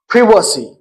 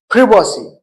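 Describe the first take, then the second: First: Privacy is said with a British pronunciation. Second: The same.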